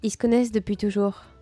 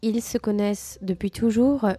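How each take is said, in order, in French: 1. Le mot « ils » est réduit à un simple son « i ». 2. Le mot « ils » se prononce en entier, avec le « l ». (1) "je dis" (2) "au lieu de dire"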